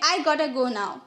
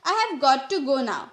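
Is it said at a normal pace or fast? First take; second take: very fast; normal. First: It is said even faster, very reduced. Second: It is said at a normal pace, fully.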